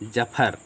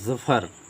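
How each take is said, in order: First: It is said without the nukta, starting with j. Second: It is said with the nukta, starting with z. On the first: "इसको बोलेंगे जफर" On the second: "जब इस नीचे नुक्ता लग गया तो ये हो गया ज़फ़र"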